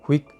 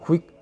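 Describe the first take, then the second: First: The final k is barely audible and very soft. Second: The same.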